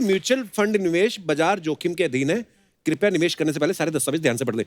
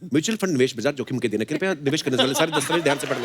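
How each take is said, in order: First: It is said slowly and clearly. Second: It is rattled off very fast.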